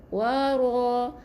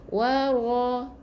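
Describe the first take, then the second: Both takes have the same delivery.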